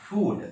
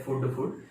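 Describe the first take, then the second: First: फूड with a long, drawn-out oo; correct pronunciation. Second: फूड with a short clipped oo vowel; common mispronunciation. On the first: Teacher giving the original pronunciation, long-vowel demonstration. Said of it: "इसका original pronunciation". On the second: Teacher showing learners the common mistake, short-vowel mispronunciation. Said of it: "ये गलत है". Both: Shown as a demonstration.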